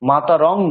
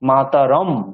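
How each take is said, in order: First: The last word ends with an ng sound. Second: The last word ends with an m sound. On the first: The speaker calls it wrong. "রং যদি বলি মাতা রং, তাহলে কিন্তু ভুল উচ্চারণ হবে" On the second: The speaker calls it right. "অনুস্বারের জায়গায় ম উচ্চারণ করতে হবে"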